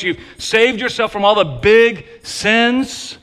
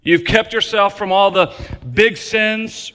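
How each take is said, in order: First: "big sins" said higher with a mocking rise, as if in big quotation marks; sarcastic, overstated air-quote voice; ironic air quotes. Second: Said in the usual way. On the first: Shown as a demonstration. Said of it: "gigantic, overstated air quotes". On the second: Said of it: "put it in gigantic overstated air quotes".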